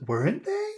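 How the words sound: It sounds unsure and questioning. The speaker wants the listener to decide. The speaker calls it wrong. "I don't know. You tell me what to think"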